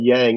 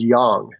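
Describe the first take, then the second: First: The name is said with an anglicized pronunciation. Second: The name is said with its Asian pronunciation. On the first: This version avoids being misspelled or mispronounced by English speakers. "So I finally just gave up and said Yang" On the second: This is how the name is said in Asia. "the correct way to pronounce my name, if you're in Asia"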